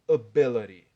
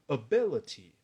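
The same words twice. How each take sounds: First: The middle consonant is a soft flapped d. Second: The middle consonant is a crisp t sound. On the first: "como uso inglês americano, vou dizer ability" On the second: "um britânico vai dizer ability"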